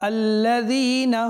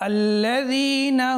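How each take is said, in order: Both takes have the same delivery.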